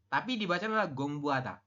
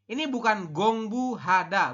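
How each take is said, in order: First: The h sound in the middle is faint. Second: The h sound in the middle is clear. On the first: The speaker calls it right. "hanya itu samar atau hampir tidak jelas" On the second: The speaker calls it wrong. "bukan gongbu hada"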